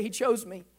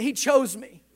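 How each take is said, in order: First: Said in the usual way. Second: "He chose me" said firmly, with conviction; like you mean it. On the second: Shown as a demonstration. Preacher urging congregation to repeat "He chose me", emphatic. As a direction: say "He chose me" with weight on "chose". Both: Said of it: "say it like you mean it".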